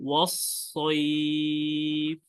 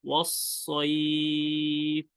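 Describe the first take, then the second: No difference in how they are said.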